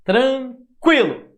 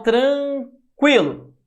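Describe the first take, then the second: First: Tranquilo said slowly and louder, stretching the u-i glide; slow demo repeat. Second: Tranquilo said slowly and louder, stretching the u-i glide; slow demo word. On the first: Teacher repeating the example for students, slow and loud. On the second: Teacher showing students a diphthong, slow and loud. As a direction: draw out tranquilo for the class. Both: Shown as a demonstration. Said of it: "Olha como o I".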